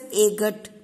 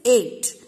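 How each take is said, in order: First: A hard g sound is pronounced inside the word. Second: No g sound is pronounced inside the word. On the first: The speaker calls it wrong. "we don't pronounce it as agat" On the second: The speaker calls it right. "No, it is 8"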